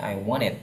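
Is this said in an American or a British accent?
American. It is said in an American accent. "Kalau Amerika cara bacanya I wanted ya"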